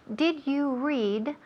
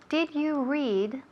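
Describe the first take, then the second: Both takes have the same delivery.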